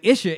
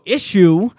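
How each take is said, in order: First: The word ends in a short 'uh' sound. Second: The word ends in a full 'oo' sound. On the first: This form is the one that makes the rhyme work. The speaker calls it right. "if they say Isha like Isha" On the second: This form breaks the rhyme. The speaker calls it wrong. "you go issue, it don't work"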